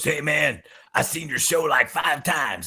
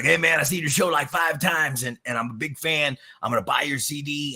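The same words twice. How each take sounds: First: High, lightly voiced rocker with a rasp; a hint of a raspy rocker voice; raspy voice impression. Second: Raspy voice impression. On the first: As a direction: imitate the guitarist's rasp. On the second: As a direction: ham up the rasp this time. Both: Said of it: "got that raspy voice".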